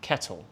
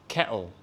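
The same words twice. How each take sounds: First: The middle T sound is clearly pronounced. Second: The middle T sound is dropped. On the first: "instead of" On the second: "They drop the T"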